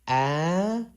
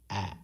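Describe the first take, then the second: First: The pitch goes up high on the vowel. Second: The vowel is very short and abruptly dropped. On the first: "the uphill, high pitched uh, forward slash on top of the a" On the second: "you drop it, it'll be a"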